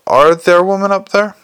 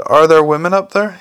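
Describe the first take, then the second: First: "Are there women up there?" pitched higher, pressed firmly; insistent repeat. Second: Said in the usual way. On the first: A narrator's reading. Repeats the question as an order.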